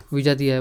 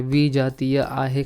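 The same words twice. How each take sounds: First: Said in the usual way. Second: विजातीय आहे stretched out, very slow; slow emphasis. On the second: Shown as a demonstration. Teacher stresses विजातीय slowly for students. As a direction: dwell on विजातीय so it sinks in. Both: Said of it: "teacher repeats answer slowly".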